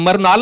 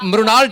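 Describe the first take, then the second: First: The name begins with a plain 'mar' sound. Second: The name begins with a 'mri' sound. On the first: The speaker calls it wrong. "इनको लग रहा है मैं मरनाल ना बोल दूं" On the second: The speaker calls it right. "और मृणा- मृणाल ठाकुर"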